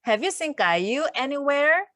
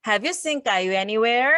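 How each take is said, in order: First: "Have you seen 까유 anywhere" said very slowly, rising at the end; slow teacher demo for learners to repeat; slow read-along. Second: "Have you seen 까유 anywhere" again very slowly, rising; slow drill for learners; slow repeat. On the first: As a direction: lead the class through it word by word. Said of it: "같이 읽어볼게요". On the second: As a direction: lead the repetition calmly. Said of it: "한 번 더요". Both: Shown as a demonstration.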